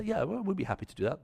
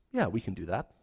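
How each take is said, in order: First: Brisk, obliging neighbourly answer; polite spoken reply. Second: Lower, reluctant inner reply; grudging yes kept to themselves; private thought. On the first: Couple politely answering the neighbours, brisk and obliging. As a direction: sound helpful to the neighbours. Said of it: "And they say". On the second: Couple privately agreeing to water plants, lower and grudging. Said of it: "And they think". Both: Retold or imitated.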